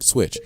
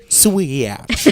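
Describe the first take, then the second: First: Said in the usual way. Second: "Switch" stretched higher into swee-atch; mocking pronunciation. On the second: Host mimicking co-host, "Switch" drawled as swee-atch. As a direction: drag "Switch" out into two syllables. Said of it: "You just say".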